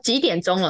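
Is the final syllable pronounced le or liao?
le. It ends with the Taiwanese-style syllable le.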